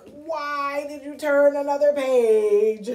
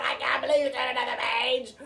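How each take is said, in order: First: Loud, slow, indignant demand; mock angry. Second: Fast, rushed, excited exclamation; excited disbelief. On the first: Showing children Grover might be angry, loudly indignant. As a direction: draw it out as an angry scolding. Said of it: "angry, like". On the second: Showing children how Grover might feel, excited. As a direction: tumble it out in one excited rush. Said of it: "either he's really excited about the fact". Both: Shown as a demonstration.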